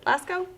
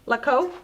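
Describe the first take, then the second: First: An s sound comes before the k. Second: No s sound comes before the k. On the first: The speaker calls it wrong. "Is that how we pronounce it?" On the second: The speaker calls it right. "I'm sorry, I'm pronouncing everything wrong"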